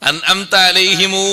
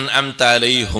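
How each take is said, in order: First: The phrase ends with an added long u. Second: The phrase ends on a plain m sound. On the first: "എന്നൊരോത്തുണ്ട്, കേട്ടില്ലേ?" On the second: "എന്നൊരോത്തുണ്ട്"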